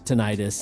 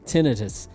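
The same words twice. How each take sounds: First: The stress is on the second syllable. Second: The stress is on the first syllable. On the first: The speaker calls it wrong. "It's not pronounced tinnitus" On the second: The speaker calls it right. "doctors pronounce it tinnitus"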